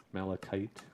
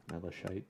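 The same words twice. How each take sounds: First: Malachite said as MAL-a-kite, hard k, questioning rise; trying a pronunciation. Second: Malachite said as MAL-a-shy, soft sh, quieter rising; other pronunciation. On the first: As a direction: test the hard-k version of Malachite. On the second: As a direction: try the sh version of Malachite softly. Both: Shown as a demonstration. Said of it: "correct pronunciation is".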